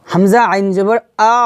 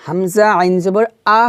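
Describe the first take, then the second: First: Final "আ" closed on a held throat ain; correct ain ending. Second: Final "আ" left open, without the ain; wrong open ending. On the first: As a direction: start "আ" at the throat's base and glide into ain. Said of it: "Hamza গিয়ে আইনকে ধরছে". ("আ" গলায় আইন ধরে) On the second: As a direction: say a bare "আ" with no throat catch. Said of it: "হবে না, কি হবে". (আইন ছাড়া খোলা "আ") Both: Shown as a demonstration.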